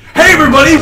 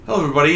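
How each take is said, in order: First: It is said with high, lively energy. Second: It is said with low, calm energy.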